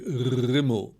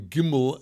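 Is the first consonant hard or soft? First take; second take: soft; hard. First: The first consonant is a softer throaty sound. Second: The first consonant is a hard plosive g. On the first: The letter has no dot in its middle. "a Rimmel is coming out as a softer form of that letter" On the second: The letter has a dot in its middle. "the Gimel is coming out as a plosive"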